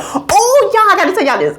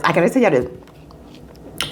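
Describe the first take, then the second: First: High, eager announcement; bubbling over; excited burst. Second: Softer, slower aside; hushed repeat. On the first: Bursting with news. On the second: Repeats it low. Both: Real, not acted.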